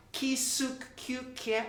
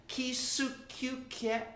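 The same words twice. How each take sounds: First: Kisuk-kuk-ke spelled out slowly syllable by syllable; slow careful pronunciation. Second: Put-on Kisukyukye said slowly in one flow for kids to copy; slow repeated pronunciation. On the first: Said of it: "this is the tough one". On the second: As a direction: say Kisukyukye slowly again for them to try. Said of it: "Can you try that?". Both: Shown as a demonstration.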